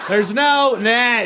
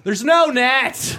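First: High, slow, laughing yell again held long; laughing high shout; repeated gleeful shout. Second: High, slow, laughing yell; laughing high shout; gleeful shout. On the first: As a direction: push the shout further, laughing. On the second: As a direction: shout it out with glee. Atheists shouting at walker. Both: Retold or imitated.

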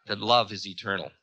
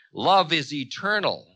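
First: Quick, dismissive echo at normal pitch; dismissive quoting. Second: Raised, unhurried, firm declaration; Ravana, assured declaration. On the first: Time echoing Ravana's words on love, dismissive. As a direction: toss the belief off quickly. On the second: Ravana answering Time's threats of doom, assured. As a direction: declare it as settled truth. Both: A narrator's reading.

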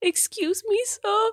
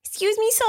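First: Put-on high, small four-year-old voice; lost little kid in a grocery store; baby voice. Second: Put-on high little-kid voice; squeaky four-year-old asking a stranger; baby voice. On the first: Lost four-year-old asks a stranger for help, high baby voice. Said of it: "I don't wanna talk like a baby". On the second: Friend mocking adults using a baby voice, high and childish. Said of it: "Don't you think it'd be weird if I was like".

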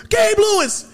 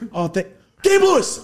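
First: High, loud laughing shriek of the name; laughing scream. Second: High, loud name yelled through laughter; laughing yell. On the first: Retelling screaming the actor's name, laughing scream. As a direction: scream it through a laugh like a starstruck fan. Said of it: "one twelve Peaches scream". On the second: Retelling yelling the actor's name, laughing yell. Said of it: "I just yelled his fictional name". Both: Retold or imitated.

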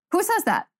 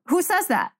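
First: Higher disbelieving "Who says that?"; incredulous again. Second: "Who says that?" with disbelief on says; incredulous question. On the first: Host repeats the question to viewers, incredulous. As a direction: push the disbelief further. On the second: Host reacts to viewer complaint, incredulous. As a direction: ask who would ever say that. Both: Real, not acted. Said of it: "host reacting to viewer pet peeve".

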